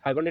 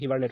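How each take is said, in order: First: The first syllable sounds like 'hai'. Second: The first syllable sounds like 'hi'. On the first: "এখানে লেখা আছে" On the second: "উচ্চারণটা হিবারনেট হয়"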